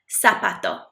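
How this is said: The z sounds like s, Latin American style.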